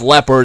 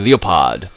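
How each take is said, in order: First: The word is pronounced the English way. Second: The word is pronounced the German way. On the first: "It's pronounced Leopard in English" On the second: "in German they say Leopard"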